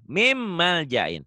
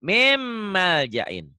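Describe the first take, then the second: First: Mim mal jain, slow, with the N of min melted into the M. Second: Mim mal jain dragged out, the M held long and merged; very slow Mim mal jain. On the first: A tajwid teacher demonstrating Mim mal jain slowly for his student. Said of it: "N-nya berubah jadi M tuh". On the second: A teacher drawing out Mim mal jain very slowly so his student hears the merge. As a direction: stretch the mim in Mim mal jain with a nasal hold. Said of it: "Jadi di sini nyambar ke sini". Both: Shown as a demonstration.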